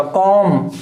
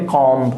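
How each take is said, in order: First: कॉम ending on m, no b; silent b. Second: Comb with the final b pronounced; wrongly sounded b. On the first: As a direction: close कॉम on a long m. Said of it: "बी silent रहेगा". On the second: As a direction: end comb on an audible b after the m. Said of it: "not a comb". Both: Shown as a demonstration.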